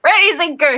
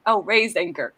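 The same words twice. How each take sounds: First: Pirate command. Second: Said in the usual way. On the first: Shown as a demonstration. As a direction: raise anchor called high and loud. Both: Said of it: "how do you say it".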